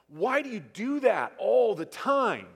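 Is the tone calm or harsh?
harsh. It is said in a harsh, scolding tone. The speaker is accusing and frustrated. The speaker calls it wrong. "if I look at my kids and I'm like"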